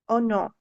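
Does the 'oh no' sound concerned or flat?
flat. It is said flatly, without feeling. The speaker calls it wrong. "it won't be the oh no"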